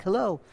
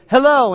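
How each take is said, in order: First: Soft echo coming back; cave echo. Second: Higher call into a cave; mock yell. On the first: Acted. Cave answering the boy, soft echo. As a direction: say it as a faint, distant echo. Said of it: "the cave echoed back". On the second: Boy yelling hello into a cave, mock yell. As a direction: call out like a boy testing an echo. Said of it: "he yelled into the cave".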